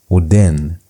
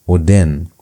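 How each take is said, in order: The two takes are said the same way.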